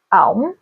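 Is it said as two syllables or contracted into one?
one syllable. It is merged into one short syllable.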